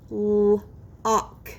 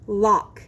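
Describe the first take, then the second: First: Held L, pause, then the "ock" of Lock; segmented sounds. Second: Said in the usual way. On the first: Shown as a demonstration. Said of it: "I will say the sounds in a word". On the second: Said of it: "you will blend the sounds".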